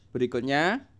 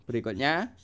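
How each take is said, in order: No difference in how they are said.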